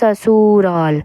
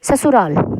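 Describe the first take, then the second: First: The middle u vowel is drawn out long. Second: The middle u vowel is cut short. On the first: The speaker calls it wrong. "अब ऐसे नहीं बोलते" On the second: The speaker calls it right. "छोटा ऊ छोटी आवाज़"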